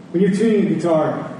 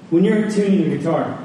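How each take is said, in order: Both takes have the same delivery.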